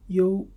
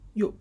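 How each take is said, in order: First: The tone stays high and level. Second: The tone falls sharply from high.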